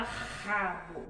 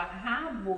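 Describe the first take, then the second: First: Rabo said with a light tapped R, the wrong way. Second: Rabo said with a strong throaty h-like R; correct rabo. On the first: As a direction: tap the R in rabo as a mistake. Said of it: "a gente não fala rabo". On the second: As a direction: say rabo with the rough R at the start. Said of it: "para pronunciar a palavra rabo, a gente fala rabo". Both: Shown as a demonstration.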